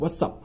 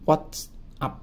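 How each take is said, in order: First: The phrase is said quickly and run together. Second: The phrase is said at an ordinary pace.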